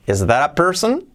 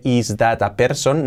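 First: "that a" run together as "dara", rising question; real English pronunciation. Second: THAT with a hard, separate T in "Is that a person?"; textbook pronunciation. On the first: Teacher corrects to real English, linked "that a". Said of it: "en aprender inglés real". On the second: Teacher mocks what not to say, hard T in "that". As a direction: stiff word-by-word "is dat a person", T fully sounded. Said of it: "Nada de". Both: Shown as a demonstration.

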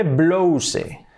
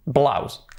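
First: "blouse" drawn out as BLO-u-seh; every vowel of "blouse" sounded, Spanish-style; spelling pronunciation. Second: Said in the usual way. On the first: Shown as a demonstration. Teacher repeating how it is written, spelled-out reading. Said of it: "se escribe blouse". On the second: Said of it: "blusa, ¿cómo será?".

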